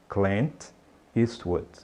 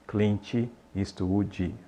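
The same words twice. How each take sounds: First: The final consonant is said without an added vowel. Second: An extra vowel is added after the final consonant. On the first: The speaker calls it right. "não coloque essa vogal de apoio" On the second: The speaker calls it wrong. "Não fale Clint Eastwood"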